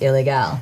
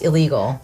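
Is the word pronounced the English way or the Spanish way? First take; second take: Spanish; English. First: The word is pronounced the Spanish way. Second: The word is pronounced like English 'illegal'. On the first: The speaker calls it right. "It's pronounced illegal because it's Mexican" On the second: The speaker calls it wrong. "it's not pronounced illegal"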